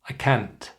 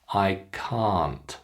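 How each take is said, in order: First: The vowel in can't is cut short. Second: The vowel in can't is held long. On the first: The speaker calls it wrong. "Students often make it short" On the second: The speaker calls it right.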